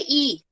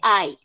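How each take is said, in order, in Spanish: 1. Se dice con un sonido vocálico español. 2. Se dice con un sonido vocálico inglés. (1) "no se dice I. No, I es del español" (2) "Se dice I"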